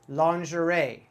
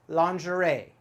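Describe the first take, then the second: Both takes have the same delivery.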